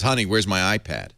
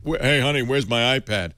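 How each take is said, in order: First: Said in the usual way. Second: Put-on light Boston tough-guy accent; a hint of a macho Boston boxer. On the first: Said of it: "But he says". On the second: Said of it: "He's got a Boston accent".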